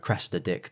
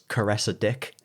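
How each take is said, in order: First: The first name is pronounced as Cressida. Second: The first name is pronounced as Caressa. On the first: The speaker calls it right. "a guy is meant to say Cressida Dick" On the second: The speaker calls it wrong. "he mispronounces it as Caressa Dick"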